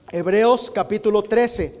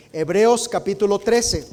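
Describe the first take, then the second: No difference in how they are said.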